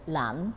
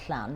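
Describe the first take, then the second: First: It starts with a plain, ordinary L sound. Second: It starts with a hissing, breathy L sound. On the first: This is how the locals said it. "we said Lan" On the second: This is how the place is properly pronounced. "we never said Llan"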